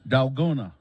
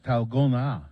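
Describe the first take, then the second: First: The word is read the English way. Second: The word is said the Korean way. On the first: The speaker calls it wrong. "that's not how you say it" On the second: The speaker calls it right. "it's Korean. It's pronounced Dalgona"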